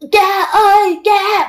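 The call is spoken in a strained, choked voice. The caller seems to be strangled and in danger. "mà giống như là đang bị bóp cổ vậy đó"

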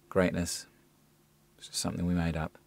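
The reading sounds flat and uninterested. "Uninterested, disinterested, doesn't work either"

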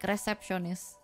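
It is said with an Indonesian pronunciation.

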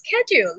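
It is said in an American accent. "in America, they pronounce it as schedule"

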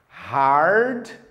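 The R sound is clearly and strongly pronounced. "inglês norte-americano a pronúncia dele fica bem mais presente"

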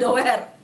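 The word is read with Indonesian spelling sounds. The speaker calls it wrong. "jangan dibaca doer"

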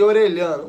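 The double L has a Brazilian Portuguese sound. "vamos abrasileirar para facilitar"

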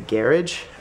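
Garage is said with a British pronunciation. This is the way picked up from friends. "because my British friends, they always say, like, garage"

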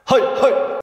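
It is shouted aggressively, like taiko drumming calls.

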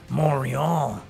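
It is said with a French accent.

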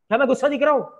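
It is said in an angry tone.

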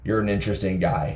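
It is said in a demeaning, belittling tone.

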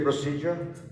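It is pronounced in a British English way. "British people say procedure"

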